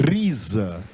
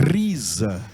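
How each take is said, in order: Both takes have the same delivery.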